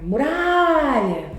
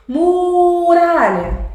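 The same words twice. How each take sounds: First: "muralha" with the middle RA stretched long; stress on RA. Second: "muralha" called out with the first syllable MU held long, high and loud; wrong stress on MU. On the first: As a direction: call out "muralha", holding the RA. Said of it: "é muralha". ("muralha" com o RA forte e esticado) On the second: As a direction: misplace the stress, stretching the MU of "muralha". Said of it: "você não chama muralha". ("muralha" com o MU esticado e forte, errado) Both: Shown as a demonstration.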